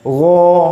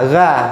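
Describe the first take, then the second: First: The syllable sounds thick, with an o-like vowel. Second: The syllable sounds thin, with an open a vowel. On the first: The speaker calls it right. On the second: The speaker calls it wrong.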